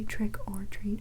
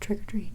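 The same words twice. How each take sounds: First: The three words are said separately. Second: The three words run together as one.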